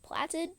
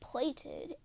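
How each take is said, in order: First: The first vowel is a short 'a' sound. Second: The first vowel is a long 'ay' sound. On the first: The speaker calls it wrong. "She said it as platted" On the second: The speaker calls it right. "the word was plated"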